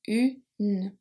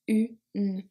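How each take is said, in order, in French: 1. Le n final est bien prononcé. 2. Le n final est bien prononcé.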